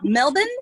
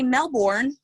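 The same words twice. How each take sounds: First: Melbourne is said the Australian way. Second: Melbourne is said the American way. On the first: This is how locals say it. The speaker calls it right. "but it's Melbourne" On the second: This is how people back home say it. The speaker calls it wrong. "We say Melbourne"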